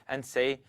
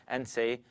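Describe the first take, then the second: Both takes have the same delivery.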